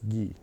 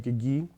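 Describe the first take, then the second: First: The two G sounds merge into one. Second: Two separate G sounds are pronounced. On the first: This is how speakers in Wisconsin say it. "but here it's just gi" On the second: This is how speakers farther west say it. "they might say gigi"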